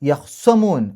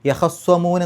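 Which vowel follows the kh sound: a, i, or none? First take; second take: none; a. First: The kh sound is followed by no vowel. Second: The kh sound is followed by an a vowel. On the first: "ഖാഇന് സുക്കൂൻ ഇട്ടിട്ട്" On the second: "ഖാഇന് ഫത്ഹ്"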